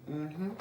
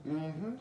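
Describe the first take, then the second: No difference in how they are said.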